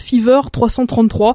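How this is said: The name is said with French pronunciation. "en français, on va dire que ça s'appelle"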